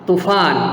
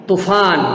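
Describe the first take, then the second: No difference in how they are said.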